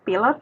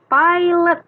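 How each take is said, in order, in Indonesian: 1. Dibacanya sesuai tulisannya. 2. Dibacanya dengan lafal Inggris. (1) "tulisannya pilot" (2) "tapi dibacanya pilot"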